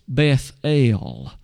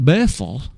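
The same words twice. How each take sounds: First: The final syllable el is emphasized. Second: The final syllable el is not emphasized. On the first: "but notice the last two letters" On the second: "We more often call it Bethel"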